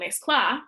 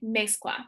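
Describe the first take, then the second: First: The stress falls off the second-to-last syllable. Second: The stress falls on the second-to-last syllable. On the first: The speaker calls it wrong. "I'm not saying mezcla" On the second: The speaker calls it right. "I'm saying mezcla"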